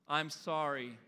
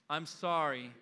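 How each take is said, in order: No difference in how they are said.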